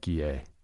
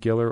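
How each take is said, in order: First: The name is said with a French pronunciation. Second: The name is said with an English pronunciation. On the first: "there's always the Quebecois" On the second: "I'm going to go with Scotiabank Giller"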